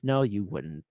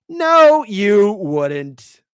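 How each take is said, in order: First: Said in the usual way. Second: Shouted retort. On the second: Real, not acted. Retort to the boasters.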